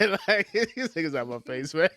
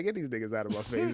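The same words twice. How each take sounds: First: Laughing through the line; cracking up mid-sentence. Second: Fast, scornful wave-off; dismissive brush-off. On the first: Repeats punchline while cracking up. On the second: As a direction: brush them away quickly. Dismissive punchline about the Colts. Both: Acted.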